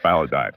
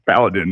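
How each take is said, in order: First: The last syllable sounds like 'dine'. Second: The last syllable sounds like 'din'. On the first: The speaker calls it wrong. "not Paladin" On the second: The speaker calls it right. "Paladin, not dying"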